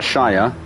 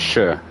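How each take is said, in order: First: Shy-er, the rejected way of saying Shire; Shire wrongly as shy-er. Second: Shire as a short, lower "shuh"; Shire reduced to shuh. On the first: Friend correcting a visitor's pronunciation, Shire as shy-er. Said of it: "it's not Shire". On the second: Friend correcting a visitor's pronunciation, Shire as shuh. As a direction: cut Shire down to an unstressed-sounding shuh. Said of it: "it's Shire". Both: Shown as a demonstration.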